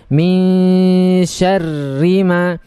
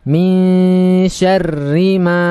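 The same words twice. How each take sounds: Both takes have the same delivery.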